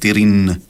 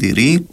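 First: The final n is fully and clearly pronounced. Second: The final n is weak or barely heard. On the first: The speaker calls it wrong. "όχι" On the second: The speaker calls it right. "εν το αρθρώνουμε φουλ"

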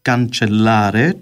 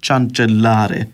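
First: The word begins with a k sound. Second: The word begins with a ch sound. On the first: The speaker calls it right. "λαλούν cancellare" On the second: The speaker calls it wrong. "και όχι cancellare"

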